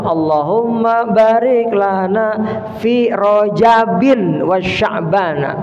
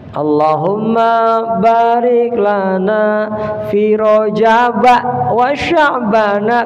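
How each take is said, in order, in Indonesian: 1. Kata Rajab berakhir dengan bunyi 'in'. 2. Kata Rajab berakhir dengan 'a' pendek. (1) "yang betul adalah" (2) "akhirnya kesalahan terjadi lumrah"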